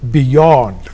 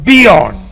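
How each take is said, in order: First: The second syllable is stressed more strongly. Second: The second syllable gets no extra stress. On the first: The speaker calls it right. "ಎರಡನೇ ಅಕ್ಷರವನ್ನ ಹೆಚ್ಚು ಒತ್ತಬೇಕು" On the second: The speaker calls it wrong. "ನಾವು beyond, behind ಅಂತೀವಿ"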